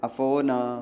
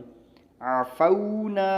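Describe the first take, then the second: First: The middle vowel is a single steady 'o'. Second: The middle vowel glides from 'a' to 'w'. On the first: "अफोना मजहूल है।" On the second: "ये मारूफ है।"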